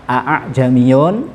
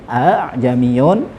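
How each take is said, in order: Both takes have the same delivery.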